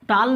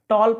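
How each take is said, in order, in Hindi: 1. स्वर खुला, बिना गोलाई वाला 'ah' ध्वनि है। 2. स्वर गोलाई वाला 'aw' ध्वनि है। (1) "टाल नहीं पढ़ रहा हूं" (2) "टॉल पढ़ रहा हूं"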